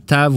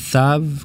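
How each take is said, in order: First: The word begins with a plain t sound. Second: The word begins with a th sound. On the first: "ça serait comme un tav" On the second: "ou un thav, comme en anglais, T H"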